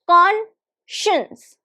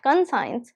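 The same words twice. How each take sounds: First: The middle sound is a 'sh'. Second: The middle sound is a plain 's'. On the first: The speaker calls it right. "There is sh sound" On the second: The speaker calls it wrong. "this is not conscience"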